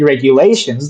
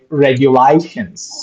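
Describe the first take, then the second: First: It is said in a standard accent. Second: It is said in an Australian accent. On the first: "like normal people do" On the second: "that's Australian"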